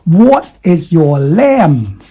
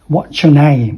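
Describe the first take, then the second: First: The words are said in full, separately. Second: The words are contracted and linked together. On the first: The speaker calls it wrong. "Don't say, ... No" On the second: The speaker calls it right. "With the nasal sound back and forth"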